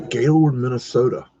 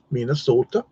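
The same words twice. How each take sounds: First: Said in the usual way. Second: Put-on a light Minnesota accent on "Minnesota", round long o's like mee-nuh-SOH-tuh; half-hearted Minnesota accent. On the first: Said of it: "That's my best Minnesota accent". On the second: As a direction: imitate a Minnesotan saying "Minnesota", only a hint. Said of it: "That's my best Minnesota accent I can muster".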